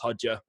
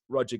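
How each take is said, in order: First: The name begins with an H-like sound. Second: The name begins with an English R sound.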